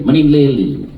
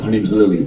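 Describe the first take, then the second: First: Lightly put-on Chinese accent; imitated Chinese accent. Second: Said in the usual way. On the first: Nail lady introducing herself, imitated Chinese accent. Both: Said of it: "That's her accent".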